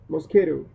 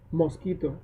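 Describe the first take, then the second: First: It is said with English pronunciation. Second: It is said with Spanish pronunciation. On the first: The speaker calls it wrong. "first in English" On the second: The speaker calls it right. "then in Spanish"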